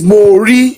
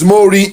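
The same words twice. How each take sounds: First: The last syllable is not on a middle tone. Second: The last syllable is on a middle tone. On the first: The sentence is incomplete and needs more words. "then it is not complete" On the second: The sentence is complete on its own. "changed it to a middle tone because it completes it"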